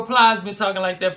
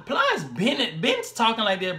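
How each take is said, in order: First: Said in the usual way. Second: Put-on slow, stretched-out Florida accent; mock Florida rapper talk; imitated Florida drawl. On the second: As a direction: drag the words like a Florida rapper. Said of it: "So they really talk like this".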